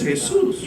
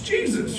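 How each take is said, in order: First: The name is pronounced the Spanish way. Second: The name is pronounced the English way. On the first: It refers to a laid-back local guy. "ripped jeans, smells like weed, three hours late" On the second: It refers to the holy religious figure. "if it's all beautiful, holy, robes, died on the cross"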